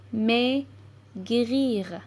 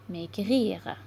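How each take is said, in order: First: "maigrir" as MAI ... GRIR, with a pause between; syllable by syllable. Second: Said in the usual way. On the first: Shown as a demonstration. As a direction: sound out "maigrir" slowly in two parts, mai, grir. (« maigrir » lu syllabe par syllabe, mai – grir) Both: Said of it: "lire des mots avec les syllabes complexes".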